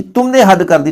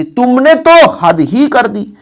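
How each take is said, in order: First: Said in the usual way. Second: Very slow and higher, with weight on तो and ही; emphatic stress. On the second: Shown as a demonstration. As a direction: stretch तुमने तो हद ही कर दी and press तो and ही. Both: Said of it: "ही जोड़ दे".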